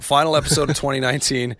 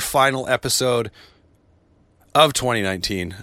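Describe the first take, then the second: First: There is no pause after 'final episode'. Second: There is a pause after 'final episode'. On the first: Only the year's run of episodes is ending. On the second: The show itself seems to be ending for good.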